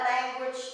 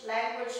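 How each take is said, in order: Both takes have the same delivery.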